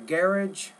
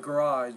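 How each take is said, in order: First: It is said with a British pronunciation. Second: It is said with an American pronunciation. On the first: "depending on if you're speaking British English" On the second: "or American English"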